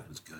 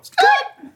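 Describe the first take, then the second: First: The voice is pitched low. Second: The voice is pitched high.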